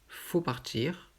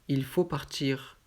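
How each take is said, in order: First: The word il is left out entirely. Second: The word il is said before faut.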